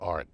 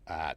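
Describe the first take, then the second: First: It is said in a general accent. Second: It is said in a Boston accent.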